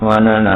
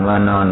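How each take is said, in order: First: "ว่านร" in three syllables, wa-na-ra; Pali reading. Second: "ว่านอน" in two syllables, ending in an n; Thai reading. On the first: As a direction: sound out each syllable of "ว่านร", no final n. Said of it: "บาลีว่าตรงครับ". (อ่าน "ว่านร" แบบบาลี วา-นะ-ระ) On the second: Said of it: "คนไทยอ่านว่านอนไม่ตรง". (อ่าน "ว่านอน" แบบไทย สองพยางค์) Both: Shown as a demonstration.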